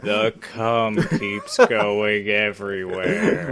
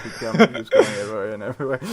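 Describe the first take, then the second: First: Slow, low monotone drone; monotone impression. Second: Quick giggly retelling; laughing quote. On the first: Co-host mocking his own filthy writing, monotone drone. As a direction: drag every word out in a deadpan monotone. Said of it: "with that monotone voice". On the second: Retold or imitated. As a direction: rush it while laughing. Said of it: "that monotone voice".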